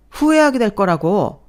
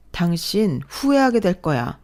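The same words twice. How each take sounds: First: 후회하게 thrown back high and loud in scorn; husband mocking wife's warning; mocking echo. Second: 후회하게 stressed slowly, falling firmly; slow, measured threat with weight on 후회하게; wife warning husband he will regret it; cold warning. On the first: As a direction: sneer it back, incredulous. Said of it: "mocking echo". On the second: Acted.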